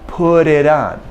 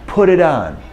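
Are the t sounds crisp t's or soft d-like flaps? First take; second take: d-like flaps; d-like flaps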